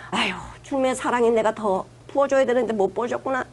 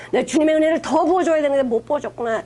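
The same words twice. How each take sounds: First: Sighing, subdued mock prayer of regret; rueful self-reproach. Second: "더" stressed in a fuller-voiced acted regret; emphatic self-reproach. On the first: Preacher modelling a prayer that blames oneself, rueful. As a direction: lament it gently, as if owning the failure. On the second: Preacher modelling a repentant prayer, stressing "더". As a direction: repeat the regret firmly, leaning on "더".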